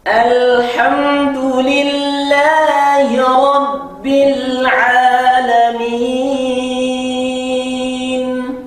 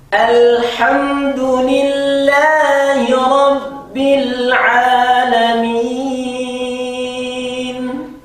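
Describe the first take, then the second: Both takes have the same delivery.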